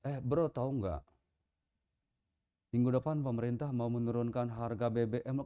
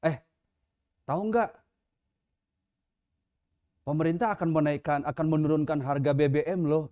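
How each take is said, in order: First: Good news told with a gloomy face; glum wrong delivery. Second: Light, chatty gossip tone, lifting a little; casual good news. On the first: Preacher showing good news wrongly told in a mournful tone. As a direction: lower and softer, flat and downcast. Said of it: "bahasa tubuh kita". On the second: Preacher showing how good news is told, casual and relaxed. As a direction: share it like happy news over coffee. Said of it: "Misalnya begini". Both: Retold or imitated.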